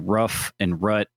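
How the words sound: The vowel is short, in a Syracuse accent.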